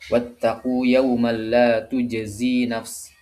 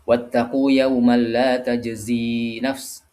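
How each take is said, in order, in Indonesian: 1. Vokal pertama kata kerjanya adalah u bulat. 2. Vokal pertama kata kerjanya adalah a terbuka. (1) "di dhammah huruf ta-nya" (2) "Menggunakan ta ya, termasuk bacaan kita"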